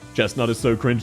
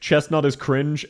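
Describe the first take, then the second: First: It is said in a deep, slow voice. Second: It is said in a normal voice.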